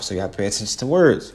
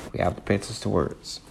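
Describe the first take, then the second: First: Said in the usual way. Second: Repeated quietly. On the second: Shown as a demonstration.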